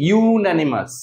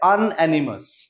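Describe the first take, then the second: First: The word begins with a 'you' sound. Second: The word begins with an 'uh' vowel sound. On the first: The speaker calls it right. "Actually এর উচ্চারণটা হচ্ছে ইউন্যানিমাস" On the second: The speaker calls it wrong. "প্রত্যেকের এটা মনে হতে পারে আনঅ্যানিমাস"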